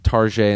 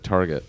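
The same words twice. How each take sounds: First: The name is said in a fancy, foreign-sounding way. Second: The name is said in a plain, everyday way.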